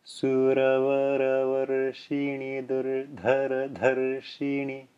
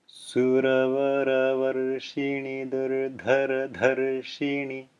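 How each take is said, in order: First: Slow Sanskrit recitation with tapped r sounds, a touch softer. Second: Slow Sanskrit recitation with tapped r sounds. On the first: Teacher repeating the Sanskrit line slowly for students. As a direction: read it slowly again, each r a light tongue tap. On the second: Teacher slowly reciting the Sanskrit line for students to follow. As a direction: read it slowly, each r a light tongue tap. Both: Shown as a demonstration. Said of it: "Again slowly".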